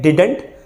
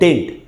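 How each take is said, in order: First: The middle d sound is fully pronounced. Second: The middle d sound is dropped entirely. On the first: "एक है डिडंट" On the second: "second है डिंट"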